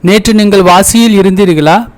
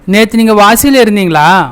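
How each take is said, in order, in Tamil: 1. வினை விகுதி முழு எழுத்து வழக்கில் சொல்லப்படுகிறது. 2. வினை விகுதி பேச்சு வழக்கில் போலக் குறுக்கப்பட்டு சொல்லப்படுகிறது. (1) "தமிழ் எழுத்து மொழி" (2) "பேச்சு மொழி"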